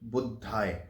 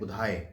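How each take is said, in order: First: The middle consonant is doubled, like in 'Buddha'. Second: The middle consonant is single and short. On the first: The speaker calls it wrong. "वो बुद्धाय नहीं है" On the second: The speaker calls it right. "उसका सही उच्चारण बुधाय है"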